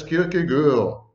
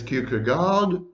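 First: Danish-style Kierkegaard with a rounded final vowel; Danish pronunciation. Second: Anglicized Kierkegaard, sounding the final D; English pronunciation. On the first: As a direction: say Kierkegaard as KEER-keh-gurr. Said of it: "in Danish, it's Kierkegaard". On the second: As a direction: say Kierkegaard as KEER-kuh-gard. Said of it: "one should not pronounce the name". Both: Shown as a demonstration.

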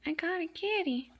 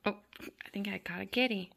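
First: High, gleeful cooing; pet talk. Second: Said in the usual way. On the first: Real, not acted. Kitten caught on the toy, high pet talk.

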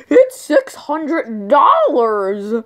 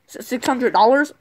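First: Louder, drawn-out price reveal; grand price announcement. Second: Stammered echo with DOLLARS rising; disbelieving question. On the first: Clerk announces the phone's price to customers, grandly drawn out. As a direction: stretch out DOLLARS slowly and loudly. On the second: Dad questions the clerk's price, stammering in disbelief. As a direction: stumble on six, lift DOLLARS into a question. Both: Acted.

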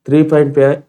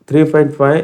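The two takes are said the same way.

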